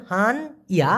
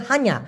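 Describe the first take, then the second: First: হান, pause, ইয়া; syllables apart. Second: হানিয়া in one piece, han-ya; said together. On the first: Teacher breaking the word down, হান ইয়া said apart. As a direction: say হান and ইয়া as separate pieces. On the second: Teacher showing how locals say it, হানিয়া run together. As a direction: join হানিয়া without a break, han-ya. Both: Shown as a demonstration. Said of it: "ওরা একসাথে উচ্চারণ করে".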